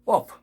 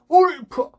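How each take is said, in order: First: The word is said quietly. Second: The word is shouted loudly. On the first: The speaker calls it right. "작지만은" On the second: The speaker calls it wrong. "잘못된 발음을 크게 소리 질러 봅시다"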